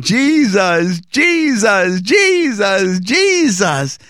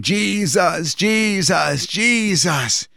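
First: Higher and louder, ecstatic cries of Jesus; ecstatic calling. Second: Slightly raised, urgent calling of Jesus; shouting a name while running. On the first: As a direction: cry the name out like a man in ecstasy. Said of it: "but now I'm calling". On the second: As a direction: call the name out as you run down the mountain. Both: Retold or imitated.

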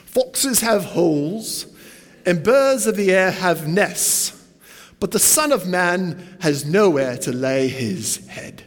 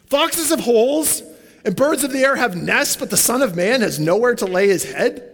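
First: Slow, lightly put-on British accent for Jesus; Jesus in a gentle British accent, slow and measured. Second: Put-on higher, incredulous echo of Jesus' British-accent words, rising like a question; baffled repeat. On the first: Jesus answering the eager follower, in a slow British accent. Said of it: "I always imagine Jesus with a British accent". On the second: The would-be follower repeating Jesus' words back, bewildered and rising. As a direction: repeat it back as if it makes no sense. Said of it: "You're kinda like".

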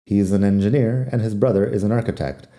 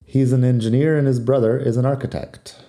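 First: Words run together, "an" reduced; said fast. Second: Said in the usual way. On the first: Shown as a demonstration. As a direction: rattle it off at natural speed. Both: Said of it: "Si lo digo rápido".

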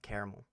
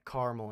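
First: "caramel" with the middle vowel kept; three-syllable caramel. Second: "caramel" squeezed to two syllables. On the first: Podcaster showing his second version to co-host, three-syllable pronunciation. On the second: Podcaster showing his first version to co-host, two-syllable pronunciation. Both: Shown as a demonstration. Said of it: "I'll probably flip-flop between it".

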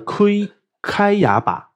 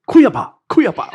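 First: Said in the usual way. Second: "开呀吧，开呀吧" called out loud and high with a laugh; Taiwanese-style 开呀吧. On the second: Shown as a demonstration. Teacher demonstrating 以法大 as Taiwanese, loud and laughing. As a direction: belt "开呀吧" twice as a playful Taiwanese rendering. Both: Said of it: "这以法大就是台语".

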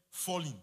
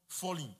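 Both takes have the same delivery.

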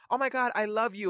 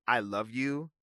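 First: High, gushing "Oh my God, I love you"; gushing fan. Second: Said in the usual way. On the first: Pretend. A fan spotting Nene Leakes on the street, gushing high. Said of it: "people will see... Nene Leakes on the street". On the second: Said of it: "if Issa just would've said".

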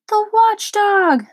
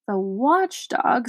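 First: High, loud, slow terrified cry; frightened shout. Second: Slow, puzzled echo; quizzical. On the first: Lothargian panics at the watchdog's name, shouting. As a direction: yell it out in fright, nearly fainting. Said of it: "shouted another". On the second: Milo puzzled by the watchdog's name, quizzical. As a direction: Milo repeats the word slowly, wondering. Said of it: "said Milo quizzically". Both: Acted.

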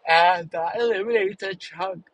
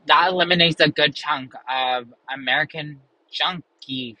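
First: Words stretched through a yawn. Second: Said in the usual way. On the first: Real, not acted. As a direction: say it mid-yawn, jaw wide open. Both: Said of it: "sorry, I'm yawning".

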